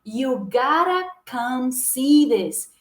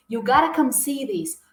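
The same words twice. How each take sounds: First: "You gotta come see this" said very slowly, "gára câm"; slow pronunciation demo. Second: "You gotta come see this" at a steadier pace, flapped "gotta"; natural pace model. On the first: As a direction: stretch every word out slowly, flap the t. (bem devagar, "iu gára câm si dis") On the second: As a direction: say it naturally, "gára câm". (em ritmo natural, "iu gára câm si dis") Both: Shown as a demonstration. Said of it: "vai ficar assim".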